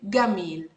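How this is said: The word begins with a G sound. "Egyptians would say Gamil"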